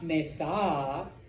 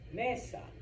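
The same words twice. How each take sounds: First: The stress is on the last syllable. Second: The stress is on the first syllable. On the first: The speaker calls it wrong. "It's not mesa" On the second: The speaker calls it right. "that's the second to last syllable"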